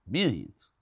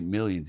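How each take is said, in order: First: It is said in an old East Texas accent. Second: It is said in a plain, standard accent. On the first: "he's kind of got an old East Texas thing about him" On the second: "he don't say millions"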